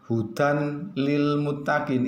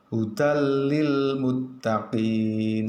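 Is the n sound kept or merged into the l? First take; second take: kept; merged. First: The n is kept before the l. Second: The n merges into the l sound. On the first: The speaker calls it wrong. "bukan hudan lil muttaqin, itu salah" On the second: The speaker calls it right. "Yang betul bagaimana? Hudal lil muttaqin, seperti itu"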